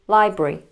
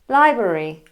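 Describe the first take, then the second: First: The unstressed middle vowel is dropped entirely. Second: The unstressed middle vowel is pronounced in full. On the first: "which becomes library" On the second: "We also have the word library"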